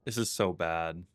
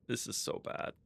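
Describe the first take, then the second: First: Said in the usual way. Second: Soft, voiceless whisper; whispered dismay. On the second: Real, not acted. Player facing own mess, dismayed whisper. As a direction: say it under your breath.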